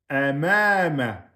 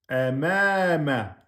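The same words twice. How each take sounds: The two takes are said the same way.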